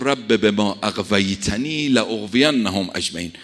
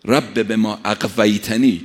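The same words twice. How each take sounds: First: Slow Quranic recitation. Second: Slow emphatic recitation. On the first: Quran verse recited in sermon. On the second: Verse repeated with weight. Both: Acted.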